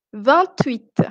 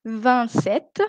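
First: "vingt-huit" with T linked into "huit", ending falling; sounded T liaison. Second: "Vingt-sept" with no T before "sept", ending raised; silent T. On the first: Teacher repeats the contrast for students, liaison T in "vingt-huit". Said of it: "Ici je prononce aussi". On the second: Teacher repeats the contrast for students, silent T in "Vingt-sept". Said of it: "alors que je prononce". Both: Shown as a demonstration.

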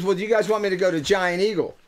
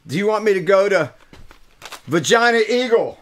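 First: Said in the usual way. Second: Vagina Eagle said a little higher and louder, as misheard; misheard question. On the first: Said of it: "She says". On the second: Retold or imitated. Retelling what he thought the lady asked, Vagina Eagle. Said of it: "it sounded like she said Vagina Eagle".

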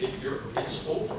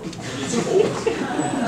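First: Said in the usual way. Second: Higher, louder and very slow, stretching out over; the punchline, dragged out for effect; drawn-out dramatic repeat. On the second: Acted. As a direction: let it's over hang, slow and much higher.

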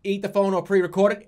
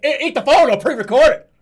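First: Said in the usual way. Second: Emphatic, louder demand; louder repeat. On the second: Real, not acted. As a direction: say it louder, insisting.

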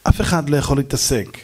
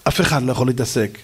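Both takes have the same delivery.

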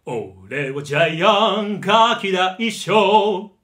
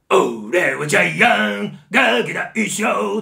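First: Loud, slow, full-voiced song; the same bully line, rich and full; Gian with a good voice. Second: Loud, slow, shouted bully singing; harsh, drawn-out bully bellow; Gian's bellowing song. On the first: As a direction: sing it round and resonant instead of yelling. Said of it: "いいふくよかな低音を持ったらどうなるか". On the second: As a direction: belt it like a pushy bully yelling at everyone. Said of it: "うわーって怒鳴るような歌い方". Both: Shown as a demonstration.

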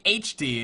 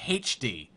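First: H D said "aitch dee"; American "aitch". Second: H D said "haitch dee"; British "haitch". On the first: Shown as a demonstration. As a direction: say H D with no h sound at the start. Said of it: "we say H D". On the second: Retold or imitated. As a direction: say H D with a breathed h at the start. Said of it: "you said H D".

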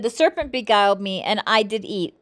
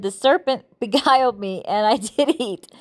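First: Said in the usual way. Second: Bible verse cracked by a giggle; real amusement mid-verse; laughing while reading. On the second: Real, not acted. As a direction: try to keep reading through the laughter. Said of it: "I'm sorry I'm laughing".

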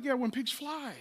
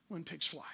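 First: Soft, dry sarcastic yeah; sarcastic brush-off. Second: Far softer, lower "When pigs fly"; muttered aside. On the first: Retold or imitated. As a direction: toss off "when pigs fly" with a scoff. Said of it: "And he's like". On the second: Shown as a demonstration. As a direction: drop "When pigs fly" almost under the breath.

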